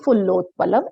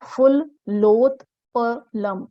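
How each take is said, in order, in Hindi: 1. यह बिना रुके, हिस्सों के बीच विराम के बिना सहज रूप से बोला जाता है। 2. यह अलग-अलग हिस्सों में, बीच में रुककर बोला जाता है। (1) "ऐसा उच्चारण करें" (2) "ऐसा हम थोड़ा अलग अलग हम शब्दों को देखें"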